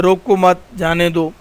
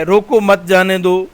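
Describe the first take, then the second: First: روکو مت as one unit, break, جانے دو; pause after مت. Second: Slight break after روکو, مت جانے دو run together; brief comma after روکو; pause after روکو. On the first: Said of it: "کے بعد کاما ڈال دیا جائے". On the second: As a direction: keep مت joined to جانے دو. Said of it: "ایک ہی جملہ ہے". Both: Shown as a demonstration.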